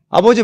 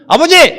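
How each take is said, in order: First: It is said at a normal, soft volume. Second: It is said loudly, almost shouted.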